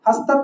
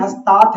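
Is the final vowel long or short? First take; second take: short; long. First: The final vowel is short. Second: The final vowel is long. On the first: The speaker calls it wrong. "हस्तत नहीं है" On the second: The speaker calls it right. "ये बड़ा आ है"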